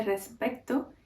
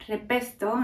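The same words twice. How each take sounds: First: Said in the usual way. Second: Andalusian accent. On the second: Shown as a demonstration. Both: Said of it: "en lugar de".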